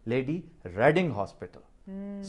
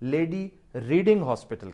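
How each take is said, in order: First: 'Reading' has a short 'e' vowel, like 'red'. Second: 'Reading' has a long 'ee' vowel, like 'reed'. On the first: The speaker calls it right. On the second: The speaker calls it wrong. "वो lady रीडिंग hospital नहीं है"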